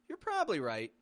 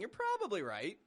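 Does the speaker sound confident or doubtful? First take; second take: confident; doubtful. First: It sounds confident, with little weight on probably. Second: It sounds doubtful, with weight on probably. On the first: The speaker believes the listener is right. "this even sounds a little more confident in what you're saying" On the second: There is some chance the listener is wrong. "we've got this little twenty percent chance that you're wrong"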